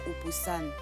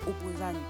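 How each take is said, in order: First: The consonant near the end is an s sound. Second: The consonant near the end is a z sound. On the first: The speaker calls it wrong. "c'est comme ça que certains d'entre vous prononcent mon prénom" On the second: The speaker calls it right. "la bonne prononciation c'est Opposane avec un Z"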